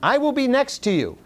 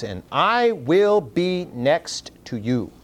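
First: "will" punched high and firm, the rest higher; stress on WILL. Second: "And I will be next to you" said slowly, each word weighed; slow and deliberate on "I will be next to you"; slow emphatic quote. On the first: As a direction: lift the line and lean hard on "will". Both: Shown as a demonstration. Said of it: "is emphasized by the words".

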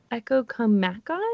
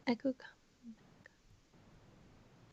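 First: Said in the usual way. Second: Slow whisper. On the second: Shown as a demonstration. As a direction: whisper it slowly, testing the sounds. Guessing phrase, tries it softly.

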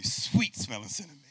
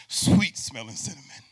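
First: Said in the usual way. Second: Loud, ringing "Sweet smelling cinnamon"; booming preacher call of "Sweet smelling cinnamon"; God's loud proclamation. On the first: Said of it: "You gotta say it with me". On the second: Acted. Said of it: "And God says".

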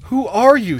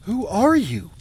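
First: Loud, high-pitched plea; frantic, much louder demand to know; desperate cry. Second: Startled, higher-pitched queen; high, swooping cry of shock; gasped question. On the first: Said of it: "she cried desperately". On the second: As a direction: gasp it in alarm. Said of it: "gasped Taramis". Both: A narrator's reading.

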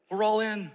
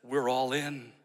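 First: Higher, ringing declaration; all in, lifted and bold; rallying cry. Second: Said in the usual way. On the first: Shown as a demonstration. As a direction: proclaim it like a rally call. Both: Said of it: "a mindset that says".

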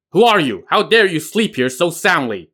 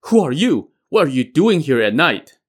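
First: Loud, higher barked challenge. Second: Startled, higher and louder; jolted awake, demanding who it is; shocked question. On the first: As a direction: bark it at the intruder. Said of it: "he suddenly barked". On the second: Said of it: "asked with shock". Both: A narrator's reading.

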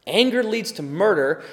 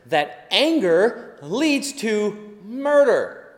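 First: Said in the usual way. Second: Each word slowed right down; slow emphatic warning. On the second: Acted. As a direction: lay the point down slowly. Key warning of sermon.

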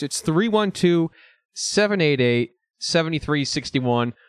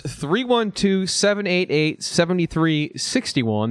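First: Slow announcer repeat of the number; radio ad repeating the hotline. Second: Slow, deliberate announcer read of the number; radio ad reading out a hotline; phone number read out. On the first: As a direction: hammer the digits home like a radio ad. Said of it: "That's right, folks". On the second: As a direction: spell it out like an ad. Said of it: "That voicemail number is". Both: Shown as a demonstration.

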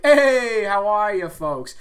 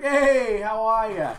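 First: High, loud sing-song hey how are ya; podcast intro greeting. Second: High, loud hey how are ya; coworker's greeting. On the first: Coworker's greeting he borrows for the show intro, loud and high. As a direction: belt out a cheery host greeting. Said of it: "that's where I get the intro". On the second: Coworker greeting him at work, loud and high. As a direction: call it out cheerily across the room. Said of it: "He always comes up to me, and he's like". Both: Retold or imitated.

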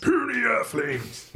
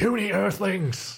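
First: Slow, high booming alien echo; giant alien booming voice. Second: High, slow booming alien; giant alien booming voice. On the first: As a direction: boom it like an alien overlord. Lrrr quote echoed. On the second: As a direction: boom it out like an alien ruler. Lrrr quote, booming. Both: Acted.

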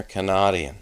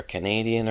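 First: "Canadian" said as "kuh-NOT-ee-un"; punned pronunciation. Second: Said in the usual way. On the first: Real, not acted. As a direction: swap the stressed "nay" in "Canadian" for "not". Contrasting pun answers in quiz.

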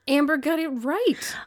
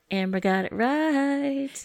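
First: Each word of "Amber got it right" drawn out slowly and pitched up; slow emphatic correction. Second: "Amber Got It Right" announced slowly and a little higher, playing the chastened guest; mock formal correction. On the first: Shown as a demonstration. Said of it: "Your recommendation is an". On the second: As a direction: solemnly restate "Amber Got It Right" as a title. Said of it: "Oh, excuse me".

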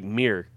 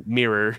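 First: "Meer" said like M-E-E-R; one syllable. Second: "mirror" said in two syllables, mir-ror; extra syllable. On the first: Explaining that's how we say it, "Meer" in one syllable. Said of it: "M E E R". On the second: Giving the full word after "Meer", "mirror" in two syllables. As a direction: finish "mirror" with a separate "ror". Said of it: "Saying that extra syllable". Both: Shown as a demonstration.

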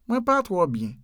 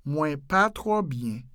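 First: Said in the usual way. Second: "Mwen pa twò byen" slowly and evenly; slowed-down model. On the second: Shown as a demonstration. Teacher repeating the Creole phrase, slowed down.

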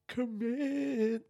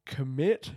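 First: "Commit" sung out high and drawn; emphatic. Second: Said in the usual way. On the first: Shown as a demonstration. Repeating the lesson learnt, "Commit" said high and long. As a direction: lift "Commit" way up, stretching it.

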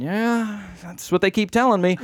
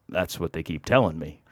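First: High, drawn-out noncommittal yeah; pitched-up, hedging reply; evasive agreement. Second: Low, soft deadpan dodge; subdued, noncommittal mumbled reply; sheepish deflection. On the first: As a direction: go along with it sheepishly. Evasive answer to woman. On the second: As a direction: offer it quietly, admitting nothing. Sheepish answer to sceptic. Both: Retold or imitated.

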